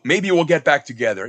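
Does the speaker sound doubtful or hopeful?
hopeful. It sounds hopeful and optimistic. The speaker expects it may really happen. "it's all about the intonation"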